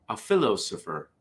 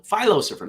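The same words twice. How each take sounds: First: "philosopher" with the normal short i, fil-; usual philosopher pronunciation. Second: "philosopher" as FY-lo-sopher, high and louder; phyllo-style pronunciation. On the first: Joke teller first reads the punchline, "philosopher" with a short i. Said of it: "No, philo-, philosopher". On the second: Joke teller corrects the pun, "philosopher" with a long i. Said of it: "That's how you call it". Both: Shown as a demonstration.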